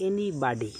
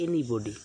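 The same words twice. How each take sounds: First: Anybody with American vowels, eni-bah-dee; American pronunciation. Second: Anybody the British way, eni-bo-dee, lower pitch; British pronunciation. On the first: Teacher shows the American way to say anybody. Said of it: "American উচ্চারণ হচ্ছে". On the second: Teacher shows the British way to say anybody. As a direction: say anybody the British way, rounded middle vowel. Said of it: "British উচ্চারণ হচ্ছে". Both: Shown as a demonstration.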